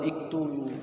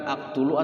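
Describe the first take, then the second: First: The word begins with an i vowel. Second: The word begins with an a vowel. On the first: "atau iktulu" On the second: "bukan aktulu"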